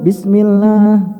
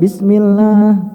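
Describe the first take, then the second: First: The long vowel sounds nasal, through the nose. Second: The same.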